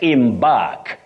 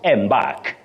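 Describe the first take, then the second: First: The stress falls on the second syllable. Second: The stress falls on the first syllable. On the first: The speaker calls it right. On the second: The speaker calls it wrong.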